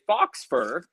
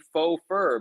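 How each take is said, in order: First: The first word ends in a 'ks' sound. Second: The first word ends in a plain vowel. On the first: The speaker calls it wrong. "you say fox fur" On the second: The speaker calls it right. "faux is spelled F A U X"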